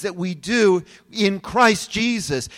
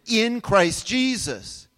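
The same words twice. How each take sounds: First: Said in the usual way. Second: Slow, deliberate stress on "in Christ Jesus"; emphasized phrase. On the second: Shown as a demonstration. Pastor stressing to the congregation the words in Christ Jesus, slow and emphatic. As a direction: lean on each word of "in Christ Jesus". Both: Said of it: "I want to emphasize that statement".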